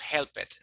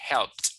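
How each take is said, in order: First: The ending is not a plain T sound. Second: The ending is a plain T sound. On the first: The speaker calls it wrong. "No digamos helped" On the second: The speaker calls it right. "se pronuncian con T"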